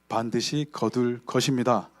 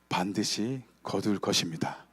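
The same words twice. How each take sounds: First: It is said loudest, about three times louder. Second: It is said about twice as loud. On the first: "한 세 배쯤 커야 돼요" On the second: "두 배로 커졌는데"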